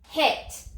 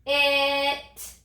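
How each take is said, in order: First: Said in the usual way. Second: "It" drawn out after a separate puff of h; a lone breathed h, then stretch "It"; sounded out. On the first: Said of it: "What's the word?". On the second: Shown as a demonstration. Teacher has children touch and say the new sounds, "It" sounded out slowly. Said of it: "Let's touch and say".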